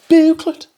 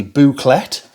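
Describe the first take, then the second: First: "Booklet" squeaked high with an altered vowel; "Booklet" as a high, comic echo; playful mispronunciation. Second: Said in the usual way. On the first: Shown as a demonstration. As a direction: echo "Booklet" in a silly, much higher voice. Echoes own word in another way.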